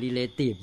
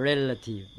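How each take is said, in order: First: Relative misread as re-LAY-tive; mistaken reading. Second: Relative as REL-a-tive, stress first; corrected pronunciation. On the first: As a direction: say relative wrongly, rhymed on relation. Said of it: "เปล่า ไม่ใช่". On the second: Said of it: "เปล่า ไม่ใช่ relative เนี่ย". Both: Shown as a demonstration.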